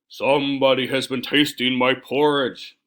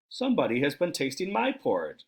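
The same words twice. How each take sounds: First: It is said in a great big bear voice. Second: It is said in a middle-sized bear voice.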